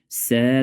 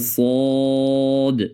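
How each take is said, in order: First: The letter is said light, with a thin sound. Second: The letter is said heavy, with a full sound. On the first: The speaker calls it wrong. "ساد نشوه که باز بسین تبدیل میشه" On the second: The speaker calls it right. "باید پر خوانده شوه"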